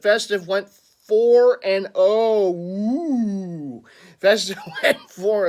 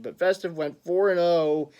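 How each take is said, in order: First: Drawn-out, loud, high mock-ghost wail; horrible ghost impersonation. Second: Said in the usual way. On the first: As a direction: wail it like a badly faked ghost. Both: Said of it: "that was a horrible ghost impersonation".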